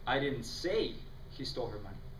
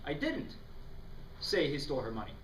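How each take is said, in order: First: The stress falls on the word he. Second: The stress falls on the word didn't.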